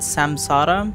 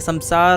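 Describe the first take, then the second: First: The word ends with an added final vowel. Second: The word ends on a consonant, no final vowel. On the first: This is the Western way of saying it. "if you go for the Western, the way it's said, it's called samsara" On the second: This is the non-Western way of saying it. "The West like to put uh, an A behind everything, but uh"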